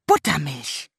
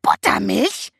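First: Said in the usual way. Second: Buttermilch shrieked high and loud, rising; shrieking raven. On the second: A narrator's reading. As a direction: screech Buttermilch like an outraged raven. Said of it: "kreischte Abraxas". (kreischender Rabe, empört)

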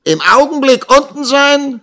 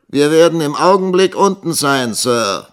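First: Very high, loud mocking echo; jeering. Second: Higher, louder reply, falling at the end; answering back. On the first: Schoolmaster mocking his assistant's answer, jeering. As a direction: throw the words back with loud scorn. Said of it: "höhnte Squeers". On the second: Young teacher answering the schoolmaster downstairs, calling back. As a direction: call the answer down to a superior. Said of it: "antwortete Nikolas". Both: A narrator's reading.

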